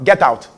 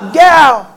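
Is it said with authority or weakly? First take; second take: weakly; authority. First: It is said weakly, without force. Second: It is said with forceful authority.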